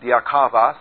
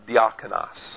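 First: A 'v' sound comes before the final syllable. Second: An 'n' sound comes before the final syllable. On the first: The speaker calls it wrong. "It's not diakavos" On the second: The speaker calls it right. "it's diakonos"

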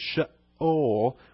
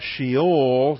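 First: The throat closes briefly in the middle. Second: The word runs together with no break. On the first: The speaker calls it right. "where you close your throat halfway through that word" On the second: The speaker calls it wrong. "just kind of all run together"

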